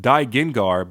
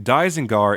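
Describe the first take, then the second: First: "Daigengar" said with a g in the middle; box pronunciation. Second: "Daizengar" said with a z in the middle; original Japanese pronunciation. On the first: Reviewer reading the name from the box, "Daigengar" with a g. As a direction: say "Daigengar" with a g in place of the z. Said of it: "On the box it's pronounced". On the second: Reviewer noting the name for viewers, "Daizengar" with a z. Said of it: "in its original Japanese pronunciation". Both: Shown as a demonstration.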